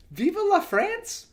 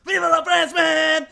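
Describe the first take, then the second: First: High rising baffled question; puzzled. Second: Put-on loud shouted odd accent line; mock French-ish accent. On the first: Real, not acted. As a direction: ask it like it makes no sense. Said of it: "didn't make sense". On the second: Host mimicking the actor's odd accent, shouting. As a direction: bark it in a strange new accent. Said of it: "this is a new accent".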